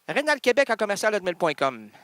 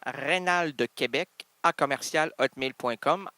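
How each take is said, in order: First: It is said at a normal, quicker pace. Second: It is said more slowly.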